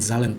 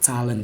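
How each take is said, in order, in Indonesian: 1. Kata ini dimulai dengan bunyi z yang bergetar. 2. Kata ini dimulai dengan bunyi ts yang tajam. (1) "bukan Zahlen" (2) "tapi Zahlen. Jadi Z-nya kayak C"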